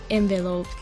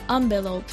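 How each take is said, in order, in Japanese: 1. この単語は 'en' の音で始まります。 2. この単語は 'on' の音で始まります。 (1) "アメリカはエンベロープで" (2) "イギリスはアンベロープっていう人がい"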